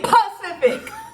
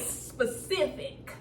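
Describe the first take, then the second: First: The word begins with a p sound. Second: The word begins with an s sound. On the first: The speaker calls it right. "No, it's Pacific" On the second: The speaker calls it wrong. "I said that right"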